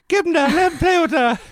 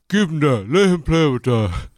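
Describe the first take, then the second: First: It is said in a much higher voice. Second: It is said in a lower voice.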